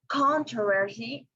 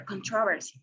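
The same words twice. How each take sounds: First: "controversy" stressed on the first syllable; stress on CON. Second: "controversy" stressed on the second syllable; stress on TRO. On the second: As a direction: say "controversy" as con-TRO-versy. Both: Shown as a demonstration. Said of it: "where to put the stress".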